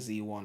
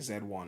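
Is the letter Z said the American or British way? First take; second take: American; British. First: The letter Z is said the American way. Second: The letter Z is said the British way. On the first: The speaker calls it right. "I'm gonna say Z one" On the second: The speaker calls it wrong. "I'm British, so I say Z. ... I can't say Z one"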